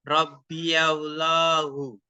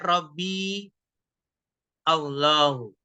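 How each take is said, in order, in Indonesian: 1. Kedua kata disambung dengan bunyi 'ya'. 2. Kedua kata dibaca tanpa sambungan 'ya'. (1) "bisa kita baca fathah" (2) "bisa kita sukun, dibaca sukun"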